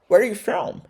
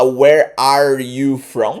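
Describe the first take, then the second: First: The word 'are' is dropped entirely. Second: The word 'are' is fully pronounced. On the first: The speaker calls it right. "Você corta o ar. ... Fica mais natural, fica mais nativo" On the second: The speaker calls it wrong. "ao invés de falar where are you from"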